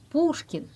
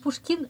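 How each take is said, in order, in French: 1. Le nom est prononcé avec la prononciation russe. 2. Le nom est prononcé avec la prononciation française. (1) "on allonge le ou" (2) "Et vous dites Pushkin, non"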